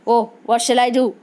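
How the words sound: It is said in an angry tone.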